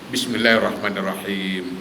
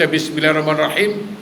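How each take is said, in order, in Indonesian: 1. Vokal panjang itu dibaca sedikit lebih panjang. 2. Vokal panjang itu dipendekkan. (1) "Betul kan sikit?"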